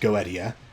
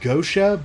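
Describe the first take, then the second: First: It is said with classical Latin pronunciation. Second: It is said the common, shortened way. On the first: "strictly speaking, the proper pronunciation is Goetia" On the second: "I think it is pronounced Gosha"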